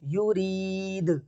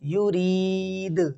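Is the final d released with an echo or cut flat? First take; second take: echo; echo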